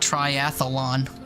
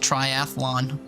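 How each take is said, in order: First: An extra 'uh' vowel is inserted before 'lon'. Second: No extra vowel is inserted before 'lon'. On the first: The speaker calls it wrong. "triathlon with an uh" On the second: The speaker calls it right. "It's literally just triathlon"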